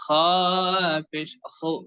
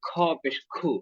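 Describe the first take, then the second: First: The kh is a rough friction from the throat. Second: The kh is a light, aspirated Bengali k. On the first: The speaker calls it right. "উচ্চারণ হবে" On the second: The speaker calls it wrong. "বাংলার মতো যাতে না হয়"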